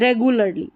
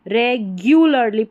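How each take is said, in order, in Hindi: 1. दूसरा अक्षर सादा 'goo' है। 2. दूसरा अक्षर 'gyoo' है। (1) "रेगुलरली नहीं" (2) "रेगुलरली पढ़ना है"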